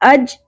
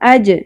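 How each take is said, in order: First: The final j ends flat, with no echoing bounce. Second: The final j ends with an echoing bounce. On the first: The speaker calls it wrong. "अज नहीं पढ़ना" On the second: The speaker calls it right. "जीम साकिन पे कलकला होगा"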